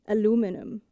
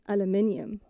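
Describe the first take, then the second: First: It is said with four syllables, American style. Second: It is said with five syllables, British style. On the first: "the American aluminum" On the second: "British aluminium, like I normally pronounce it"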